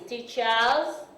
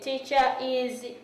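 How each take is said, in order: First: The ending is a single 's' sound. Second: The ending is a separate syllable 'is'. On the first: The speaker calls it right. "That is teacher's chair" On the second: The speaker calls it wrong. "that is wrong"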